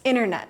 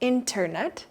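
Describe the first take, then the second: First: The middle T is left out. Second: The middle T is clearly pronounced. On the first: The speaker calls it right. "It's internet" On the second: The speaker calls it wrong. "Most people don't say internet"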